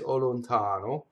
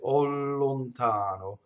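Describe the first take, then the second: First: The L is short and single. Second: The L is held long and doubled. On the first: The speaker calls it wrong. "I wouldn't say o lontano" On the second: The speaker calls it right. "I would say o lontano. So slightly doubling the L"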